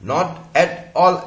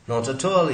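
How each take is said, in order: First: Each word is said separately. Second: The final t sounds join onto the next words. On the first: The speaker calls it wrong. "ऐसा नहीं बोलेगा कोई भी connected speech में" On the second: The speaker calls it right. "ही बोलेगा"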